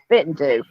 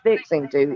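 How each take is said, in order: First: It is said with a Southern pronunciation. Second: It is said with a standard pronunciation. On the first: The speaker calls it right. "It's fitting to" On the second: The speaker calls it wrong. "you don't say fixing to"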